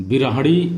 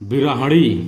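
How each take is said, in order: First: The ending sounds like hani. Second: The ending sounds like hani.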